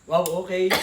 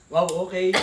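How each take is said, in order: No difference in how they are said.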